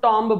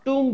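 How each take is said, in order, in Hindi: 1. अंतिम b का उच्चारण होता है। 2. अंतिम b साइलेंट है। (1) "बहुत सारे लोग इसको tomb बोलते हैं" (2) "बी साइलेंट रहेगा, tomb बोलेंगे"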